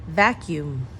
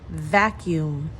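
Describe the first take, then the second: No difference in how they are said.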